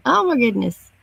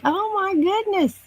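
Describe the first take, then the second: First: Said in the usual way. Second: Squeaky, amazed oh my goodness; high surprised. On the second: Real, not acted. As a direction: gasp it out in disbelief. Reacts to a viewer staying up.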